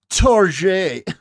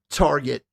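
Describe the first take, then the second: First: It is said with a French accent. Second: It is said with an ordinary English accent.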